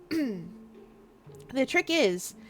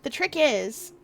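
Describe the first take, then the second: First: "the trick is" drawn out very slowly; dramatic slow buildup. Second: Said in the usual way. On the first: Shown as a demonstration. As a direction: stretch "trick is" to make them wait.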